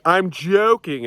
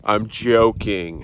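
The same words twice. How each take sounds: First: Higher and louder, "joking" drawn out slow; chirpy quip. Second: Slow and level, "joking" said gently; sincere reassurance. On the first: Retold or imitated. Telling people after a joke, a slow bright quip. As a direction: toss it off brightly. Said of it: "when I'm like". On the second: Shown as a demonstration. To viewers after a joke, unhurried and sincere. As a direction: take the edge off, slowly.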